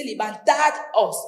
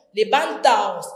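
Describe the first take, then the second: First: Levantaos with the d kept, like levantados; teacher sounding the d in levantaos; wrong form. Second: Said in the usual way. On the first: Shown as a demonstration. Teacher showing students the wrong form, says levantaos keeping the d. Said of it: "No se dice". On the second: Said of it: "Se pierde la D".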